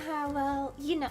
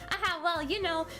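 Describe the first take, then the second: First: It is said in the other character's voice. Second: It is said in the intended character's voice.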